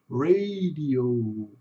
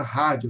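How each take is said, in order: First: "radio" with a long final OH; slow English "radio", last O trailing on; native English pronunciation. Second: "rádio" with H-like R and "dji"; "rádio" in Brazilian Portuguese; Portuguese pronunciation. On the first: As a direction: say "radio" as RAY-dee-ohhh. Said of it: "eles põem esse O no final". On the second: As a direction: say "rádio" as HAH-djoo. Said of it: "falando a palavra rádio". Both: Shown as a demonstration.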